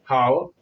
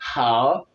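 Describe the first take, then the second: First: The h is said with little breath. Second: The h is said with strong breath. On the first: The speaker calls it wrong. "Je ne vais pas lire how, how, non" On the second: The speaker calls it right.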